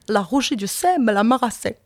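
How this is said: It is said in a Norman accent.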